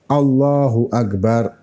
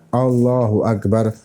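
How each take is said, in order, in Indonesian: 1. Setiap huruf dalam frasa ini diucapkan dengan jelas. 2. Setiap huruf dalam frasa ini diucapkan dengan jelas.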